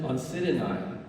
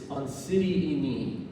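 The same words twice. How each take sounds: First: Oncidiinae ending in "nye"; old mispronunciation. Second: Oncidiini ending in a slow "ee-nee"; corrected pronunciation. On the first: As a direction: say Oncidiinae with an "eye" sound at the end. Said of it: "I used to pronounce it". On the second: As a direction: say Oncidiini slowly, with "nee" at the end. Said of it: "It's Oncidiini". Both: Shown as a demonstration.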